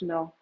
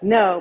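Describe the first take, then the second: First: It is said with a Spanish accent. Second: It is said with an English accent. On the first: The speaker calls it right. "but pronounced no" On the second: The speaker calls it wrong. "not pronounced like no"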